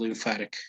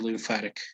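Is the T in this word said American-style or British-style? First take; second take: American; American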